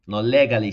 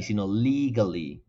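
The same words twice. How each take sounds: First: Legally with Spanish le, leh-gah-li; wrong Spanish-style reading. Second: Legally with lee, lee-guh-li; correct English pronunciation. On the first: Teacher showing the mistake students make: wrong legally. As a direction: read legally as a Spanish speaker would, louder. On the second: Teacher giving the correct English legally. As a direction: say legally properly, long ee. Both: Shown as a demonstration.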